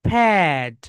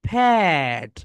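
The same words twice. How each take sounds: The two takes are said the same way.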